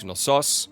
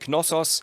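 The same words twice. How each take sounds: First: The stress is on the second syllable. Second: The stress is on the first syllable. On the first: This is the Greek pronunciation. "In Greek, it is Knossos, so the emphasis on the second O" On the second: This is the German pronunciation. "in German, we say Knossos, so the emphasis on the first O"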